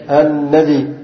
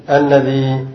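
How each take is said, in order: First: الذي cut to a short final i; dropped ya, kept kasra. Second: الذي ending in a long, still ee; long final ya. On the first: Teacher showing the second dialect form, الذي ending in short i. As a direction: say الذي with only a kasra after the dhal. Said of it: "هكذا بحذف الياء". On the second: Teacher showing students the first dialect form, الذي with long ee. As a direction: say الذي with the ya held unvowelled. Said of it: "إثبات الياء ساكنة فيهما". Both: Shown as a demonstration.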